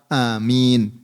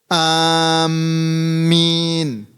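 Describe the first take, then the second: First: The first vowel is short, nothing lengthened. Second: The m sound is doubled and held. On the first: The speaker calls it right. "atau bisa membacanya dengan lafaz amin" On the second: The speaker calls it wrong. "mentasydidkan mim"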